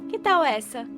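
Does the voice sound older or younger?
younger. The voice sounds younger and more childlike. The speaker calls it right. "Jovem? ... essa está muito mais de acordo"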